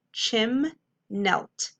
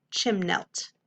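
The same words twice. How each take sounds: First: "chim-nelt" with a long gap between chim and nelt; syllable by syllable. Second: Said in the usual way. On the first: Shown as a demonstration. Teacher reading the whole word to pupils, syllable by syllable. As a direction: split "chim-nelt" into two separate syllables. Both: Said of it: "Whole word".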